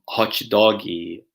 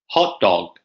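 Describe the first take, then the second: First: It ends with an added vowel sound. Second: It ends cleanly on a consonant. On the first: The speaker calls it wrong. "Brazilian Portuguese speakers will probably say something like" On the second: The speaker calls it right. "there's no need for that cheeky extra vowel sound at the end"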